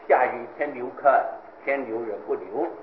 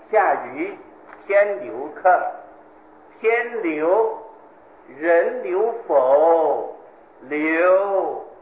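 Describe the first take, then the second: First: The ending is phrased as a flat statement. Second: The ending is phrased as a question. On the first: The host does not want the guest to stay. "这是主人的念法" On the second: The guest asks whether the host will let him stay. "天留人不留的这个不字念作否字啊"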